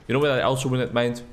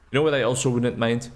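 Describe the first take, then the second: No difference in how they are said.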